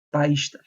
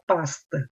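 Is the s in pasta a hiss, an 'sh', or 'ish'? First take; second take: ish; hiss. First: An extra i comes before the sh sound. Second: The s is a plain hissing s. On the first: "ele coloca um I a mais, fica paista" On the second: "não fala pasta. O S, vamos dizer, sibilante"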